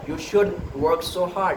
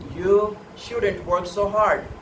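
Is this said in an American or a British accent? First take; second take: British; American. First: It has a British accent, final t dropped. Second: It has an American accent, final t sounded. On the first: "in the British English, ... they simply cut it out the T" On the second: "in American English"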